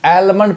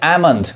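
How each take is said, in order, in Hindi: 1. M से पहले L की आवाज़ सुनाई देती है। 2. M से पहले L की कोई आवाज़ सुनाई नहीं देती। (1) "मैक्सिमम पीपल मिस प्रोनाउंस करते हैं" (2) "एल क्या है, साइलेंट है"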